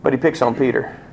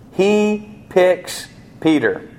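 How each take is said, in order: First: Said in the usual way. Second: "He picks Peter" very slowly, "He" held high; deliberate emphasis. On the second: Shown as a demonstration. Preacher stressing that Peter was chosen, slow deliberate emphasis. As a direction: space out "He", "picks", "Peter", starting high and falling. Repeats phrase to mean choosing.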